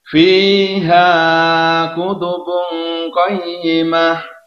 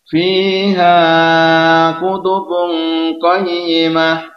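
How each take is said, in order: No difference in how they are said.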